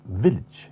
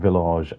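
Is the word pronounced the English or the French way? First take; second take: English; French. First: The word is pronounced the English way. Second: The word is pronounced the French way. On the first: "and not village" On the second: "a fictional track in France. That's why I'm saying village"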